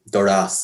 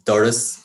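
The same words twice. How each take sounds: First: The stress is on the second syllable. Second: The stress is on the first syllable. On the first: The speaker calls it wrong. "we don't say" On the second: The speaker calls it right. "the main stress in words to fall on the first syllable. So we say things like"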